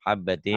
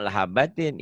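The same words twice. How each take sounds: First: "Habbatin" starting straight on Ha; correct word start. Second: "la habbatin" with a stray "la" in front; wrong added "la". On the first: Teacher corrects student, clear "Habbatin" from the Ha. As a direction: say "Habbatin" with doubled B, no la before it. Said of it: "Ini ya habbatin ya". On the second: Teacher shows student the mistake, "la habbatin". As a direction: start "la habbatin" on an extra la syllable. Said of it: "jangan, jangan". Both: Shown as a demonstration.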